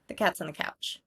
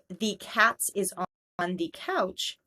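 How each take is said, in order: First: The small words are reduced to a schwa. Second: Every small word is said with a full vowel. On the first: The speaker calls it right. "this feels much more natural and quicker to say" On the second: The speaker calls it wrong. "if we really exaggerate pronunciation for every word"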